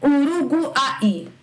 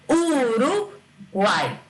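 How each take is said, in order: First: "Uruguai" slow, U sounded as a full vowel; hammed-up wrong "Uruguai". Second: "Uruguai" slow with the U glided into the A; correct glide U. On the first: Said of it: "Não tem cabimento essa palavra". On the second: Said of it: "A gente fala". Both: Shown as a demonstration.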